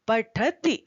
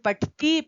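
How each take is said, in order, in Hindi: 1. अंतिम इ स्वर को छोटा रखा जाता है। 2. अंतिम इ स्वर को लंबा खींचा जाता है। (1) "छोटी ई है, ह्रस्व ई है ... शुद्ध उच्चारण" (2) "इस तरह से बोलते हैं जो बिल्कुल अशुद्ध है"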